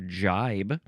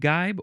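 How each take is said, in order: First: The word begins with a j sound. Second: The word begins with a hard g sound. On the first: "Probably jibe. When you pronounce it that way, that makes more sense" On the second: "is it even pronounced gibe or jibe?"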